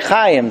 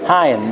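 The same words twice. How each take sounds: First: The name begins with a throaty ch sound. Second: The name begins with a soft h sound. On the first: "they can't say Chaim" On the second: "so it's a He"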